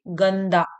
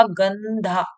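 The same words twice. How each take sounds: First: "गंदा" with unaspirated d, gann-daa; corrected d sound. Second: "गंधा" with breathy dh, gann-dhaa; mistaken dh sound. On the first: Teacher correcting her slip for pupils, unaspirated d in "गंदा". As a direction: say "गंदा" ending in plain daa. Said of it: "sorry, गंदा". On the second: Teacher's slip before correcting herself, aspirated dh in "गंधा". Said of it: "ये गंधा नहीं है". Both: Shown as a demonstration.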